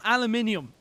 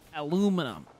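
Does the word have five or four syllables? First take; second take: five; four. First: The word is said with five syllables. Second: The word is said with four syllables. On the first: The speaker calls it wrong. "No, it's not aluminium" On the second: The speaker calls it right. "That's how we pronounce it here in the States"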